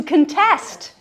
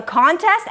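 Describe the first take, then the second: First: "contest" said kun-TEST; "contest" with weak first syllable, stressed TEST; stress on second syllable. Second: "contest" said CON-test; "contest" as a noun, front-stressed CON-test; stress on first syllable. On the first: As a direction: hit TEST in "contest", the verb. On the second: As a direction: hit CON in "contest", the competition. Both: Shown as a demonstration. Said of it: "you're changing the emphasis".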